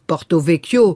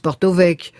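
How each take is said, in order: First: The final vowel of the name is pronounced. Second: The final vowel of the name is dropped. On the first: The speaker calls it wrong. "vous dites pas Porto Vecchio" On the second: The speaker calls it right. "vous dites Porto Vecchio"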